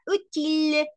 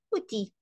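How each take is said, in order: First: "útil" with the final l sounded, higher; feminine utile. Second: "útil" clipped, final l dropped, softer; masculine outil. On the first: Teacher contrasting feminine utile for the class. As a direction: ring out the l of "útil". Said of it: "Útil es el femenino". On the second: Teacher contrasting masculine outil for the class. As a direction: clip "útil" short. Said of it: "útil es el masculino". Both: Shown as a demonstration.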